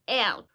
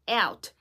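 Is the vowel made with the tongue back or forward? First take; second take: forward; forward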